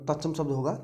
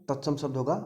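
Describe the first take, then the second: Both takes have the same delivery.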